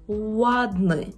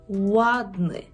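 No difference in how they are said.

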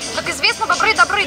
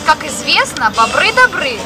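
First: The phrase is read at a fast pace. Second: The phrase is read at a normal pace.

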